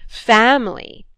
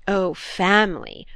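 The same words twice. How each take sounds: First: Louder mocking jeer on family. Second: Slow drawn-out scoff; jeering. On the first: Brother scoffing at his sister about family, loud jeer. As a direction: throw the word back with scorn. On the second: Brother mocking his sister's talk of family, jeering. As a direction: sneer at the word family. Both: A narrator's reading. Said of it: "he jeered".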